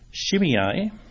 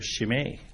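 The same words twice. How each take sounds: First: The final vowel is not a long A. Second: The final vowel is a long A. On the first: This is the English way to say the name. "That's the English pronunciation" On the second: This is the Hebrew way to say the name. "the pronunciation in Hebrew is just the EI becomes a long A sound"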